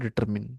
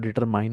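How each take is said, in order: First: The last syllable is pronounced like short 'min'. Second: The last syllable is pronounced like 'mine'. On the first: The speaker calls it right. "पण याचं pronunciation असतो डिटरमिन" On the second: The speaker calls it wrong. "आपण या शब्दाला डिटरमाइन असं उच्चारतो"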